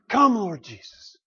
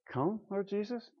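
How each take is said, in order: First: It is said sincerely and eagerly. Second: It is said reluctantly and without feeling.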